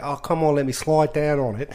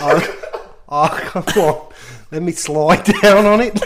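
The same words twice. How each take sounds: First: Light, badly faked Australian accent; imitated Australian girl. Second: Loud, giggly mock-Australian girl; bad Australian accent. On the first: Telling co-hosts what the girl said, mild Australian imitation. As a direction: repeat it as the Australian girl, more controlled. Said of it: "when you've heard a girl say". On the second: Imitating the Australian girl from the party, giggly Australian accent. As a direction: attempt an Australian accent, cracking up laughing. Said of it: "can't do the accent very well".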